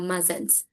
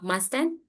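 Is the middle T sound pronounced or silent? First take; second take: silent; pronounced. First: The middle T sound is left out. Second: The middle T sound is clearly pronounced. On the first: The speaker calls it right. "we just making the sound of muzzins" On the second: The speaker calls it wrong. "if we are making T sound, mustn't, it doesn't make sense"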